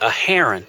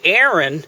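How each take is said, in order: First: The name has three syllables with an h sound. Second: The name has two syllables and no h sound. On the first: The speaker calls it right. "in Hebrew you say a Haran" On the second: The speaker calls it wrong. "when we say in English Aaron"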